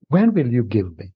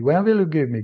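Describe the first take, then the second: First: It sounds gentle and humbly pleading. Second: It sounds impatient and demanding. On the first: The asker longs for it but accepts any timing. The speaker calls it right. "approach with eagerness, which is genuine, and ask, please" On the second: The asker greedily insists on getting something now. The speaker calls it wrong. "it's not the sign of eagerness. Mm-mm. This is the sign of Rajogun"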